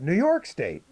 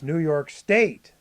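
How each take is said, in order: First: The phrase runs together with no special emphasis. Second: The word 'State' carries strong emphasis. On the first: "for us it's just all together" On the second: "you guys would emphasize the word state"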